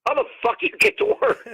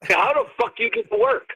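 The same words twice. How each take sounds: First: Far higher, near-falsetto disbelief; second take, way up high; squeaky incredulous repeat. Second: Raised, mock disbelief; first take, higher and incredulous; incredulous question. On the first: Retold or imitated. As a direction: repeat it, voice cracking up in mock outrage. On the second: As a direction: ask it like you can't believe them. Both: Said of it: "I go".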